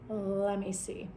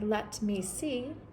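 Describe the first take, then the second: First: The T drops and the words run together. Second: Each word is said separately with a clear T. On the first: The speaker calls it right. "the T completely disappears" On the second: The speaker calls it wrong. "you're not going to say let me see"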